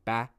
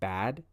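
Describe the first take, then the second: First: The final d sound is dropped. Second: The final d sound is pronounced. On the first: The speaker calls it wrong. "if you're saying ba, ba" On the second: The speaker calls it right. "instead of bad"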